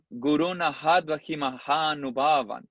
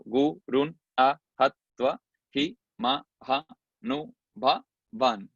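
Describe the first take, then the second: First: Connected Sanskrit verse chant; sung, recite the line in its flowing metre; sung, rhythmic scripture recitation; sung, metrical recitation. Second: Slow "Gurun a hatva hi mahanubhavan" with a gap after each syllable; each syllable of "Gurun a hatva hi mahanubhavan" detached. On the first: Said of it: "Pero aquí es". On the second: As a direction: count out "Gurun a hatva hi mahanubhavan" as separate beats. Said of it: "Son cuatro por once". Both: Shown as a demonstration.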